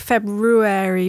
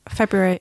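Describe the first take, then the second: First: The first R is clearly pronounced. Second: The first R is weak or dropped. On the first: Someone else says it this way. "You say it a bit more, like pronouncing the R a bit more" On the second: This is how the speaker says it. "I say February"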